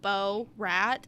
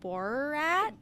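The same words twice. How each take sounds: First: The name is said with an unusual stress. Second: The name is said with its usual stress. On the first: The speaker calls it wrong. "putting the emphasis on Bo-rat" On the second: The speaker calls it right. "instead of Borat"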